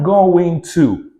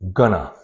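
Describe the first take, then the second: First: Both words are said fully and separately. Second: The words are squeezed into one reduced word.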